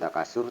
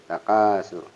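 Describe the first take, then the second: First: The vowel after the k is short. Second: The vowel after the k is lengthened. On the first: The speaker calls it wrong. "bukan takasur" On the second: The speaker calls it right. "ka matobi'i agak panjang"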